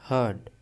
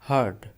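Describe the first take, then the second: No difference in how they are said.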